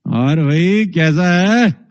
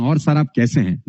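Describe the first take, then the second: First: Slow, threatening greeting; menacing tone. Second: Courteous, respectful greeting; polite tone. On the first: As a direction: make a friendly hello sound dangerous. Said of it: "अब ये tone देखो कितनी खतरनाक है". (धीमा, धमकी भरा लहजा) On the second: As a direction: ask kindly how he is. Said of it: "बात तो वही है, लेकिन टोन". (विनम्र, आदरपूर्ण लहजा) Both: Shown as a demonstration.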